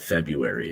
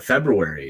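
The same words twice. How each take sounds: First: February said as FEB-yoo-air-ee, without the first R; R dropped. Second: February said as FEB-roo-air-ee, with both Rs; R pronounced. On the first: Retold or imitated. Host echoing his co-host's word, R dropped from February. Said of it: "I know what February is". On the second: Shown as a demonstration. Host correcting his co-host, R sounded in February. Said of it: "You pronounce the R".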